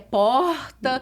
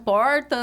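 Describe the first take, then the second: First: The R is drawn out and dragged. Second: The R is short and not dragged. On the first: This is the speaker's own regional accent. "meu R é arrastado, é porta" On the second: This is how the listeners' region says it. "vocês falam porta"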